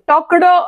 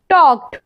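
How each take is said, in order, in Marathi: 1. हा शब्द d आवाजाने संपतो. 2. हा शब्द t आवाजाने संपतो. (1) "टॉकड नाही म्हणायचंय आपण" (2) "ट असा उच्चार होतो"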